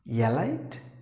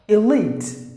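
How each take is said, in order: First: The first vowel is short, not drawn out. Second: The first vowel is a long, drawn-out E. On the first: The speaker calls it wrong. "No, not at all" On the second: The speaker calls it right. "So here it's a long sound. You have to drag it like E"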